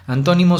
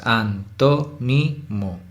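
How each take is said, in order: First: Said in the usual way. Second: Antónimo slow, each syllable separate; split into syllables. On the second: Shown as a demonstration. Teacher recounting four syllables to students, antónimo in slow separate syllables. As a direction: count out antónimo as an, tó, ni, mo. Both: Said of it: "Antónimo son cuatro sílabas".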